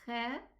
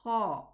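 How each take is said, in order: First: The kh sound is light, not elevated. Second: The kh sound is heavy and elevated. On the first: The speaker calls it wrong. "there's a difference between me saying khe and kha" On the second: The speaker calls it right. "the correct pronunciation is elevated"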